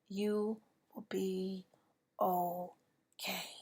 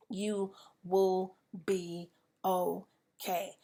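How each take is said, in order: First: Slow, tearful reassurance; voice breaking. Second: Slow, deliberate comfort; reassuring. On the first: Speaker assuring grieving listeners, voice breaking. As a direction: let the voice crack on okay. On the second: Speaker assuring grieving listeners, slow reassuring. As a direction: hold each word to steady them. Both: Real, not acted.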